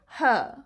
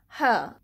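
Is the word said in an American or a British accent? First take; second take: British; British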